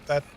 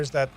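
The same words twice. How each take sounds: The two takes are said the same way.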